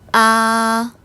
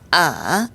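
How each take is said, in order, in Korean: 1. 음이 높고 길게 평평하게 유지된다. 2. 음이 아주 낮게 떨어졌다가 살짝만 올라간다. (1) "높고 길고 평평하게" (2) "가장 낮은 음까지 내려갔다가 살짝 올릴락 말락"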